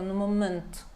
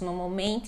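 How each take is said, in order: First: The T in momento is soft and light. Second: The T in momento is strong and firm. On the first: "ele fala no momento" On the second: "nós falaríamos no momento"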